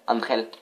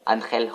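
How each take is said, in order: First: Said in the usual way. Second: Angel said with a put-on Spanish accent; a hammed-up Spanish accent on Angel; self-mocking Spanish accent. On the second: Shown as a demonstration. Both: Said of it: "mon accent espagnol vraiment magnifique".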